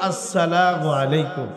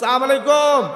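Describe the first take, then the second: First: The greeting is full and sounds polite. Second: The greeting is clipped and sounds aggressive. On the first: The speaker calls it right. "বিশুদ্ধভাবে দিব, এইভাবে দিব" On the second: The speaker calls it wrong. "মনে হয় যে পাইলে আরে মারবো"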